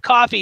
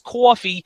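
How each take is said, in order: First: It is said in a plain, neutral accent. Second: It is said in a Staten Island accent. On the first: "instead of coffee" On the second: "you got to bring that Staten Island accent"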